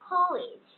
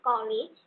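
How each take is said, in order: First: The first k sound has a strong puff of air. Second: The first k sound has no puff of air. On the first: The speaker calls it right. "ক্ষয়ের মতো উচ্চারণ করব" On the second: The speaker calls it wrong.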